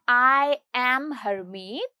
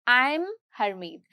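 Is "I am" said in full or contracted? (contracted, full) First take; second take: full; contracted. First: "I am" is said as two full words. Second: "I am" is contracted to "I'm". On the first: "एक तो होता है आई एम Harmeet" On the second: "casual tone में बोलूं तो"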